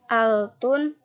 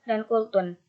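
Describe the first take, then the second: First: The word begins with a glottal stop. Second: The word begins with a q sound. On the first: This is the dialect form. "Bunyi qaf berubah menjadi hamzah" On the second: This is the standard form.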